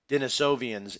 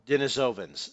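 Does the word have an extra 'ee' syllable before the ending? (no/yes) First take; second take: yes; no. First: It has an extra 'ee' syllable before the ending. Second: It has no extra syllable before the ending. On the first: The speaker calls it wrong. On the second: The speaker calls it right.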